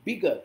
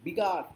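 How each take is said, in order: First: বিগার as "BIG-uh", short ending, silent r; correct pronunciation. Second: বিগার as "bigaar" with a sounded r; wrong pronunciation. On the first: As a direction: clip the end of বিগার, no r. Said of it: "আর নয়". ("বিগার" ছোট করে, শেষে র ছাড়া) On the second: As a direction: lean on a long aa and r in বিগার. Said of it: "বিগার এরম নয়". ("বিগার"-এর শেষে স্পষ্ট আ-র) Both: Shown as a demonstration.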